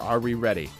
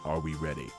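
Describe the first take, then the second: First: It is asked in a casual tone. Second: It is asked in a serious tone.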